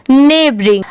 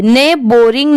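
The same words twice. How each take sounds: First: नेबरिंग said smoothly, with a short neutral b sound; giving the right form नेबरिंग; correct pronunciation. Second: नेबरिंग said as ने बोरिंग, with a full bo sound; showing the mistake with ने बोरिंग; wrong pronunciation. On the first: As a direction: blend नेबरिंग into one word. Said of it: "इसे ऐसे पढ़ेंगे". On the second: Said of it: "नहीं". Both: Shown as a demonstration.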